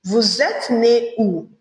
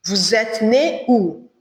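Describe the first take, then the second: First: Vous êtes né où said slowly, each word clear; slow model phrase. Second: Said in the usual way. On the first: Shown as a demonstration. Teacher models vous êtes né où slowly for the class. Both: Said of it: "you say".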